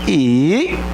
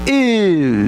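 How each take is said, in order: First: The pitch starts low and rises. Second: The pitch starts high and falls. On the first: "num tom ascendente... começa baixo e sobe" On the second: "Se é num tom descendente"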